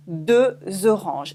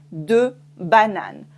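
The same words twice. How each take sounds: First: "deux oranges" with a Z linking into "oranges"; liaison with Z. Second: "deux bananes" slowly, no link between the words; no liaison. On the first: Teacher models the liaison in "deux oranges". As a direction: sound the Z between "deux" and "oranges". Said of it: "with une voyelle afterwards, we do it". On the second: Teacher models "deux bananes" without liaison. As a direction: keep "deux" clean before "bananes". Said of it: "we don't do la liaison". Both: Shown as a demonstration.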